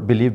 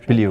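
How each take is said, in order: First: The word ends with a v sound. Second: The word ends with a vowel-like sound.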